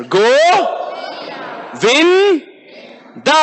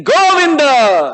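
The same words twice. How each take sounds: First: Go, Vin, Da each called separately with long pauses; one syllable at a time. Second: Chanted, Govinda drawn out in one long joined call; chanting. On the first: Preacher leads class one after another, separated syllables. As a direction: call out each syllable, then wait. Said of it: "Let's do one after another". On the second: Preacher leads the class in chanting Govinda, long joined call. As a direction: chant Govinda whole, stretching the vowels. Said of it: "Now we get the benefit of chanting". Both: Shown as a demonstration.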